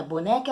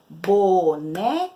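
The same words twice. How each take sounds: First: Said in the usual way. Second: "boneca" counted out slowly as bo, ne, ca; three separate, emphatic beats on "boneca"; syllable by syllable. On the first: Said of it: "Então, a palavrinha boneca, ela possui". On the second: Shown as a demonstration. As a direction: split "boneca" evenly for counting. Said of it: "Três vezes".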